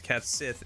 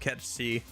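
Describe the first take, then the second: First: The second word is said as 'sith'. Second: The second word is said as 'she'. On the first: The speaker calls it wrong. "the thing that looks like it's a cat Sith" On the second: The speaker calls it right. "is called Ketchi"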